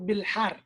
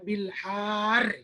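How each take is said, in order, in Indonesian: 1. Vokal setelah huruf h pendek. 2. Vokal setelah huruf h panjang. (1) "Yang benarnya kita pendekkan, nggak ada matnya" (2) "Nggak bisa kita matkan, kita panjangkan huruf H-nya. Enggak. Salah"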